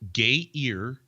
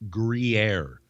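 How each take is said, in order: First: It sounds like gay-ear. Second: It sounds like groo-yair. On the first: The speaker calls it wrong. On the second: The speaker calls it right. "you pronounce this a Gruyere"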